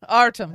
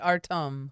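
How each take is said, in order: First: It is said in a Yankee American accent. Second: It is said carefully, following the spelled pronunciation. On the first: "my Yankee American accent on Artem" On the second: "he spelled it phonetically for me"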